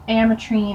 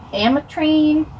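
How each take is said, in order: First: Ametrine said flat, falling, AM-uh-treen; settled pronunciation. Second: Ametrine said rising and higher, as a guess; unsure pronunciation. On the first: Second try at the shade name, said firmly. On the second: Not knowing the shade name, she tests it rising. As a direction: try Ametrine as a question. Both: Shown as a demonstration. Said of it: "I don't know how to pronounce this".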